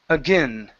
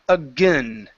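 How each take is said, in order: The two takes are said the same way.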